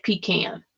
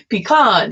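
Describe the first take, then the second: First: Pecan as pee-KAN; pecan, pee then can. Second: Pecan as pee-KAHN, broad ah; pecan ending in kahn. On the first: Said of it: "it can't be pronounced pecan". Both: Shown as a demonstration.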